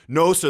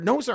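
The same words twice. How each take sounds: First: The voice sounds firm and assured. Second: The voice sounds weak and pleading. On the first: The speaker holds their ground. The speaker calls it right. "If he was to speak" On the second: The speaker is seeking approval. The speaker calls it wrong. "this guy sounds like a little nerd"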